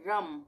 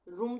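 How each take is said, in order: First: The vowel is a short 'uh' sound. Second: The vowel is a long 'oo' sound. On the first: The speaker calls it right. "इसको हम पढ़ेंगे रम, तो अ का उच्चारण आ रहा है" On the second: The speaker calls it wrong. "रूम तो नहीं पढ़ रहे इसको हम"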